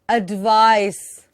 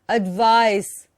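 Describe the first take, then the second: Both takes have the same delivery.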